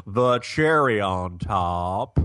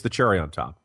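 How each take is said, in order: First: Slow, hammed-up southern drawl; phony southern drawl with TOP dragged long; fake southern accent. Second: Said in the usual way. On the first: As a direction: stretch it out in a mock southern accent. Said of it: "top also is a fourteen syllable word". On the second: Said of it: "putting a fake accent on it".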